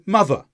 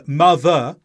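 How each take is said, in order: First: "mother" with a short schwa ending; weakened ending. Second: "mother" with both syllables given full weight; unweakened vowels. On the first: Teacher shows natural speech, "mother" with weak last syllable. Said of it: "we say mother". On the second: Teacher shows what not to say, "mother" with full vowels. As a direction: overpronounce "mother", second syllable unreduced. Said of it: "So instead of saying mother". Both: Shown as a demonstration.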